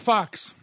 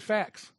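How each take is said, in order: First: The vowel sounds like the 'o' in fox. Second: The vowel sounds like the 'a' in cat. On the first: This is how English learners in the Philippines say it. "they say, get the fox" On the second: This is how the speaker's own group says it. "we say facts"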